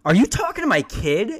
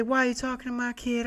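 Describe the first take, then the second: First: Loud, higher mom voice with a rising end; mom's accusing question. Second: [name] voice. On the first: Mom demanding answers from the salesman, loud and rising. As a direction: demand it like a suspicious mother. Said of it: "she goes". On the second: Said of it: "went full [name]". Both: Retold or imitated.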